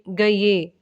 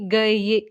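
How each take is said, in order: Both takes have the same delivery.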